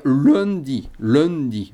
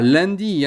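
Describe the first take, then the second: First: Lundi with the nasal closed at the end; closed Limousin nasal. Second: Said in the usual way. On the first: Shown as a demonstration. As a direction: close the mouth on the first syllable of lundi. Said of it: "on ferme". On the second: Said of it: "comme en français".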